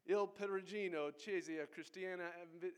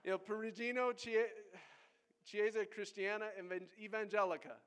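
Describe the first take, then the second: First: First, flubbed try at Italian pronunciation of "Il Perugino Chiesa Cristiana"; careful Italian accent that trips on "Ev-"; halting Italian accent, breaks off mid-word; Italian accent attempt. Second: Higher, louder second go at Italian "Il Perugino Chiesa Cristiana Evangelica"; hammed-up Italian accent, "Evangelica" said the Italian way; Italian accent retry. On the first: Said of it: "I'm working on my Italian accent". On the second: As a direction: push through the Italian name with gusto. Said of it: "I always mess up". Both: Shown as a demonstration.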